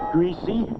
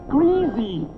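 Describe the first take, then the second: First: It is said in the northern regional way. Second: It is said in the southern regional way. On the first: The speaker grew up north of Philadelphia. "He said greasy" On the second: The speaker grew up south of Philadelphia. "not greasy"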